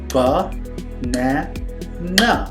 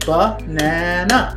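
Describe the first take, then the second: First: It is said slowly, syllable by syllable. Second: It is said quickly as one word.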